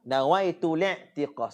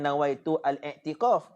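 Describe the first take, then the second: First: The 'al' vowel is dropped and linked through. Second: The 'al' is said with its own vowel. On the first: The speaker calls it right. "Cara betul bacanya nawaitu li'tiqaf" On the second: The speaker calls it wrong. "hak betulnya bukan nawaitu al-i'tiqaf"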